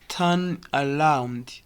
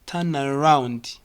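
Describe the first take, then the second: First: "turn around" slow and separated; unconnected words. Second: "turn around" linked through the N; connected words. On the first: Teacher showing what it is not, words apart. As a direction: leave a break between "turn" and "around". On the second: Teacher correcting to the linked version, joined "turn around". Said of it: "arrow connects". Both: Shown as a demonstration.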